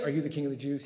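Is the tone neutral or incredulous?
neutral. It is a plain, neutral question.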